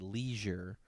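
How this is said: It is said with an American pronunciation. "we say leisure"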